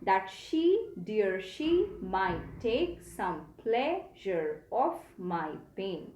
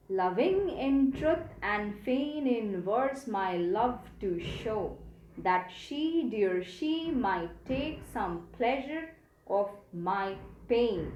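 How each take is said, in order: First: Slow, careful reread of "That she, dear she", rising on "she"; metrical reading corrected. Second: Slow, even iambic reading of "Loving in truth", each stressed beat marked; metrical reading. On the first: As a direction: reread the line slowly, lifting each "she". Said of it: "I'm going to read this again". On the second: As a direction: read the line slowly, beat by beat, stressing every second syllable. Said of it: "we have to read in this way". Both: Shown as a demonstration.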